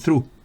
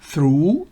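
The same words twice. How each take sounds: First: The vowel is cut short. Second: The vowel is held long. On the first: The speaker calls it wrong. "no es through" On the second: The speaker calls it right. "through es larga"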